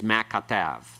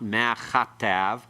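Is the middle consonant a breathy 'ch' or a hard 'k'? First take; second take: hard k; breathy ch. First: The middle consonant is a hard, stopped 'k'. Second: The middle consonant is a breathy, rasping 'ch'. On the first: The speaker calls it right. "It's a hard form. It's ma katav" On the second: The speaker calls it wrong. "It's not ma chatav. It's not a uh, aspirated form of the kaf"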